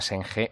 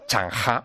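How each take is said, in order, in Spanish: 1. El nombre se dice con pronunciación al estilo español. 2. El nombre se dice con pronunciación al estilo chino.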